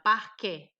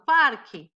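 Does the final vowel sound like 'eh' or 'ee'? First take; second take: eh; ee. First: The final vowel sounds like 'eh'. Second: The final vowel sounds like 'ee'. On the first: "Eu pronuncio o E, eu pronuncio como E" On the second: "Esse E final não tem acento, então se transforma em I"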